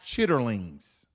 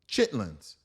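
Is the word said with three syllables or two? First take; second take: three; two. First: The word is said in full with three syllables. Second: The word is shortened to two syllables. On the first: The full formal form printed on the container. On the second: The everyday nickname form people actually use. "We say chitlins"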